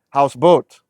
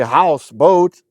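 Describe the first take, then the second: First: Said as one word with a single main stress. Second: Said as two words, each with its own stress. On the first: The speaker calls it right. "houseboat, houseboat" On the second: The speaker calls it wrong. "you don't say house, boat"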